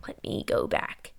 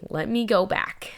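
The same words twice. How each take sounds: First: Barely audible repeat; trailing off whisper; fainter whisper. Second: Murmured self-reminder under breath; soft whispered aside. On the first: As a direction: whisper it even softer, fading. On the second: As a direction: whisper to yourself. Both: Real, not acted.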